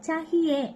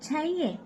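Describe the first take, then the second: First: The middle h sound is pronounced. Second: The middle h sound is dropped. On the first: This is how it is written. "ரிட்டனா எழுதுறப்ப வந்து நம்ம சஹியே அப்படின்னு சொல்லிட்டு எழுதுவோம்" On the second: This is how native speakers say it. "ஹிந்தியில கேட்கிறப்ப நம்ம அத சையே சையே அப்படின்னு சொல்லி சொல்லணும்"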